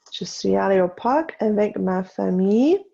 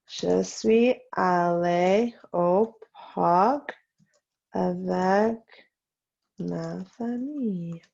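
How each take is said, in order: First: Said in the usual way. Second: Slow dictation. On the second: Shown as a demonstration. Teacher to class copying the park sentence, slow dictation. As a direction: dictate slowly with gaps between words.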